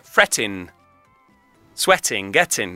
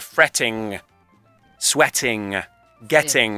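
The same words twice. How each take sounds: First: The words end in a front 'n' sound. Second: The words end in a back 'ng' sound. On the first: The speaker calls it right. "la N che sbatte sugli incisivi" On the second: The speaker calls it wrong. "Suona male"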